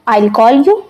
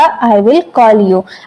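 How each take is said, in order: First: 'I will' is shortened into one syllable. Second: Both words 'I' and 'will' are said separately.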